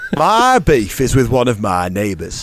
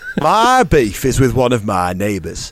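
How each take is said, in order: First: It is read in a northern English accent. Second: It is read in a northern English accent.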